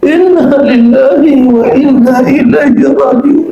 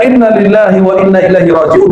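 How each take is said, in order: First: It is said in a wailing, mournful way. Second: It is said firmly and plainly.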